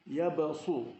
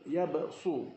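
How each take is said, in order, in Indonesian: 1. Bunyi s-nya berat dan tebal. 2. Bunyi s-nya berat dan tebal.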